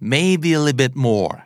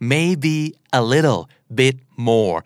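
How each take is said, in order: First: The words are run together quickly and reduced. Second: Each word is said separately and clearly. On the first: "ส่วนใหญ่จะกลายเป็น" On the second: "เจ้าของภาษาจะพูดเร็วมากนะครับ"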